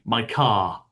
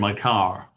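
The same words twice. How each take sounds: First: The final r in car is silent. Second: The final r in car is pronounced. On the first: "we don't usually pronounce the letter R unless it comes before a vowel. So I'll say" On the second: "I won't say"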